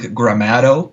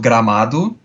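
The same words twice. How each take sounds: First: It is said with an English accent. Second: It is said with a Portuguese accent. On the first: "You guys would probably pronounce like Gramado or something like that" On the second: "I'm gonna first say it in, in Portuguese"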